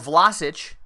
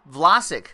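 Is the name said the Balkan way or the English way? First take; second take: Balkan; English. First: The name is said with a Balkan pronunciation. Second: The name is said with an English pronunciation.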